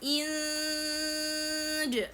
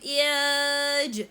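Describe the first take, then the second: First: The n sound is nasal and held before j. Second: There is no nasal sound before the j. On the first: The speaker calls it right. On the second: The speaker calls it wrong.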